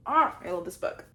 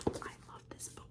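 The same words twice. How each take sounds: First: Breathy gush. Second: Soft whispered gush; hushed adoring whisper. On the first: Repeat louder, breathy. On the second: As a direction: whisper your love for it. Whispered gush about book. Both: Real, not acted.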